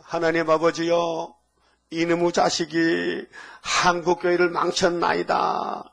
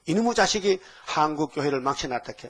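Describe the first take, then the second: First: Slow, earnest prayer voice with 한국교회를 leaned on; repentant prayer. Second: Said in the usual way. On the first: Retold or imitated. Pastor quoting a friend's Easter prayer, slow solemn confession. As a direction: pray it out slowly as a public confession. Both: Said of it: "이게 이제 기도".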